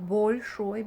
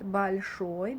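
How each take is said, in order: First: The first vowel sounds like a full o. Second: The first vowel sounds like a reduced a. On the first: The speaker calls it wrong. "not большой" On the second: The speaker calls it right. "it's pronounced like a, ... but большой, because it's not under emphasis"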